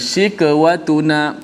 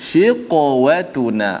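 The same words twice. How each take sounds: First: The q sound is thin like a k. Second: The q sound is thick and heavy. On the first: The speaker calls it wrong. "Tak boleh kita baca shiqwatuna" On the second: The speaker calls it right. "qaf bila mati pun dia tetap tebal juga"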